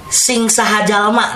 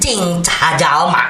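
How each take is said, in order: First: The phrase begins with an s sound. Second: The phrase begins with a ch sound.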